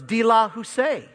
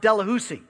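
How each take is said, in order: First: The name is pronounced the original French way. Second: The name is pronounced the Cajun way. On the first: This is the name's original form. "Kind of has a nice little twang to it" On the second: This is how Cajuns say the name. "Cajuns always pronounce it Delahoussee"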